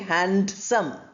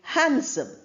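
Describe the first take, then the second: First: The D sound in the middle is pronounced. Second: The D sound in the middle is silent. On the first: The speaker calls it wrong. "We don't say handsome" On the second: The speaker calls it right. "So the D is not pronounced"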